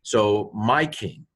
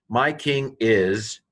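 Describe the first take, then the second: First: "my" stressed and slowed, falling at the end; teacher stressing "my". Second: "My" stressed, slow, rising at the end; teacher building the phrase slowly. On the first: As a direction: lean slowly on "my" in "So my king". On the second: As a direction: draw out "My king is" with a lift. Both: Shown as a demonstration. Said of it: "the Heroic Yod on the end is my".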